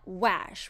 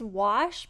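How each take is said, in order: First: The vowel is the 'a' sound of ash. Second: The vowel is an open 'ah' sound. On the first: This is the made-up rhyme for the ash family. "which is what we're looking for" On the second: This is the real English word. "the letter A can make the ah sound"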